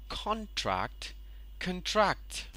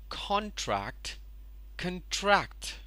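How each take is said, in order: The two takes are said the same way.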